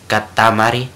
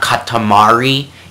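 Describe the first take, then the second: First: The R is a light tap like D. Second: The R is a smooth English-style R. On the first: The speaker calls it right. "it's like a mixture of D and R together" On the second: The speaker calls it wrong. "It's not katamari"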